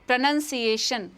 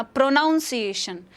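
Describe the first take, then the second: First: प्रोनंसिएशन with short "nun", no "nown"; correct pronunciation. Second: प्रोनाउंसिएशन said with "nown" like pronounce; common mispronunciation. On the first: Teacher gives students the right प्रोनंसिएशन, short "nun". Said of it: "correct spelling याद रखिए". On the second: Teacher imitates educated people saying प्रोनाउंसिएशन wrongly, "nown" sound. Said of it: "मैंने बोलते हुए सुना है". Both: Shown as a demonstration.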